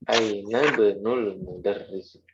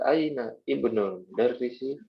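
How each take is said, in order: First: The 'i' of 'ibnul' is dropped and linked. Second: The 'i' of 'ibnul' is pronounced separately. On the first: The speaker calls it right. "langsung aja ya" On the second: The speaker calls it wrong. "jadi nggak usah"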